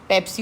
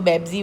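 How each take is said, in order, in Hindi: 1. यह शब्द 'p' ध्वनि से शुरू होता है। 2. यह शब्द 'b' ध्वनि से शुरू होता है।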